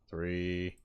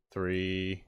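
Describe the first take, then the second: No difference in how they are said.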